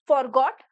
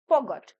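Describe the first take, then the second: First: The R sound is clearly pronounced. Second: The R sound is silent. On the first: The speaker calls it wrong. "This word is not फॉरगॉट" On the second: The speaker calls it right. "इसको आप silent रखेंगे"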